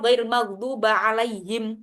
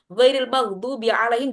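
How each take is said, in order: First: The second word ends with an 'a' vowel. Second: The second word ends with an 'i' vowel. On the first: The speaker calls it wrong. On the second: The speaker calls it right.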